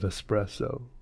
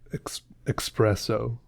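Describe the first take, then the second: First: It begins with an 'ess' sound. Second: It begins with an 'ex' sound. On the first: The speaker calls it right. "instead of espresso" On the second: The speaker calls it wrong. "people pronouncing it ex- espresso"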